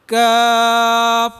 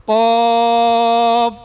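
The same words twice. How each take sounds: First: کاف said light and long, held; thin letter. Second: قاف said heavy and long, held, louder; heavy letter. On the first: Teacher contrasting it with قاف, a light کاف. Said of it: "یہ اس سے تھوڑا باریک ہے". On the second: Teacher reviewing with the students, a heavy قاف. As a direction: fill the mouth on قاف. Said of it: "یہ موٹا ہے". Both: Shown as a demonstration.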